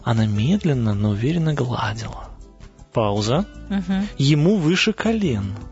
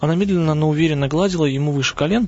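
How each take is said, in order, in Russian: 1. Пауза есть после слова гладила. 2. Читается сразу, без паузы. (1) "Пауза" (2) "не просто прочитать"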